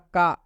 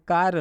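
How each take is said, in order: First: The final r sound is dropped. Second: The final r sound is pronounced. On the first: The speaker calls it right. "इसका शुद्ध उच्चारण क्या होगा?" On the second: The speaker calls it wrong. "लेकिन हम इसको कार न पढ़ेंगे।"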